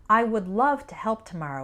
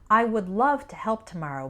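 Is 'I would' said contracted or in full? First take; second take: in full; in full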